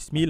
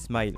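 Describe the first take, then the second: First: The word gets a jokey altered pronunciation. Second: The word gets its usual standard pronunciation. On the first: It is said this way as a joke. The speaker calls it wrong. "pour la blague, je dis Smile" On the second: This is how the title is properly said. The speaker calls it right. "je sais que ça se dit Smile"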